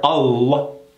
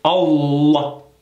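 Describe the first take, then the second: First: The L sound is pronounced hard and clearly. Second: The same.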